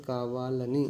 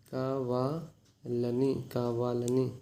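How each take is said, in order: First: Said in the usual way. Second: कावालनी stretched very slowly, syllable by syllable; slow teaching demo. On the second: Shown as a demonstration. Teacher slowing a Telugu word down for students. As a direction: drag कावालनी out so students catch it. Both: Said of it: "जानबूझकर क्या बोलते हैं".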